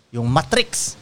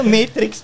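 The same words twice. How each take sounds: First: "Matrix" said with a flat "ma", as "MAT-riks"; mispronounced title. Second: Said in the usual way. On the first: Retold or imitated. Uncle naming the film he will watch, "Matrix" mispronounced as "mah-triks". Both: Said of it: "Kaya na, Matrix pala".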